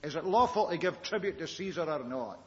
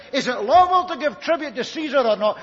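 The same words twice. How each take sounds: First: Said in the usual way. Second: "lawful" pushed loud and high, a sly trap question; emphasis on lawful. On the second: Shown as a demonstration. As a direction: lean hard on "lawful", louder throughout. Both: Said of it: "Do you notice the, the emphasis?".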